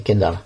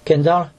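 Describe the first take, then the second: First: Kendall. said with a falling, final tune; settled name. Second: Kendall? said with a rising question tune; questioning name. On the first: Reader settling on the name Kendall, falling tune. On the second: Reader checking the name Kendall, questioning rise. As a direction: ask "Kendall?" as if unsure of it. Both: Real, not acted.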